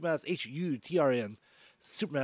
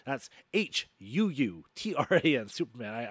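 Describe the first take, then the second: First: The words are said very quickly. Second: The words are said more slowly. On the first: The speaker calls it wrong. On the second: The speaker calls it right.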